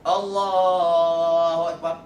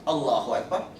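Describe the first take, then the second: First: The phrase is stretched out long. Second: The phrase is said short and quickly. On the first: The words last as long as the movement. The speaker calls it right. "dia nak seiring" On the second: The movement continues after the words end, in silence. The speaker calls it wrong. "kita turun dalam keadaan kosong"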